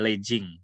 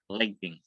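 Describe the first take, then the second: First: The middle consonant is a J sound. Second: The middle consonant is a G sound. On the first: The speaker calls it wrong. "nggak ada legging" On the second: The speaker calls it right. "tidak dibaca J tapi G ya"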